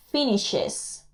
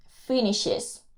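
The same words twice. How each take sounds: The two takes are said the same way.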